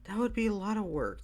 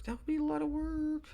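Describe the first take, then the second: First: Said in the usual way. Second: Much higher, odd voice for the line; high put-on voice. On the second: Shown as a demonstration. Podcaster to listeners, replaying a line in a high voice. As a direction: toy with the phrase in a high voice. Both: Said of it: "repeats the line in a new voice".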